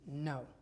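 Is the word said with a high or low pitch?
low. The word is said with a low pitch. "when you lower your voice, it indicates that something just happened that wasn't positive"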